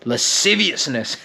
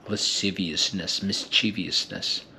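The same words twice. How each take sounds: First: Lasciviousness said out full and rising in level, each syllable laid out; relishing a word. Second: Lasciviousness, mischievousness murmured softer and slowly, tasting each syllable; whisper-savor Lasciviousness like a sweet; savoring softly. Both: Shown as a demonstration. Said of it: "They feel so good in the mouth".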